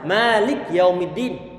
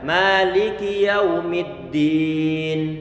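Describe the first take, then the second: First: The k ends without a following vowel. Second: A short i vowel follows the k. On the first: The speaker calls it wrong. "Kafnya saya sukunkan barusan. Ini bacaan yang saya yang salah" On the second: The speaker calls it right. "ada suara i di sana dan tidak dipanjangkan"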